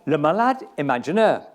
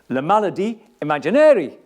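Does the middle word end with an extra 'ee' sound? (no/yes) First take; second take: no; yes. First: The middle word ends without an extra vowel. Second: The middle word ends with an added 'ee' vowel.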